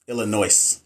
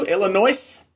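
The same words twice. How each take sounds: First: Illinois said lower with a firm falling tune; Illinois stated flatly and settled; settled try. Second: Illinois said high with a questioning rise; tentative Illinois, tune going up at the end; unsure try. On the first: Correcting herself for livestream viewers, firm falling Illinois. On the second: Reading a viewer's state on a livestream, unsure rising Illinois. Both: Shown as a demonstration. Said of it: "Did I say that wrong?".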